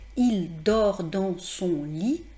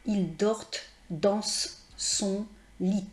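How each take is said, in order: First: The final consonants are silent. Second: The final consonants are pronounced. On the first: The speaker calls it right. "en temps normal, euh, je ne prononce pas euh, la consonne" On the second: The speaker calls it wrong. "ce n'est pas"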